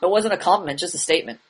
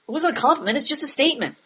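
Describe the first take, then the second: First: It sounds cool and badass. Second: It sounds defensive and justifying.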